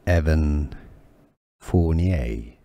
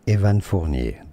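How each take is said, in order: First: The name is pronounced with English sounds. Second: The name is pronounced with French sounds. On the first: "in English" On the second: "In French, his French name is Evan"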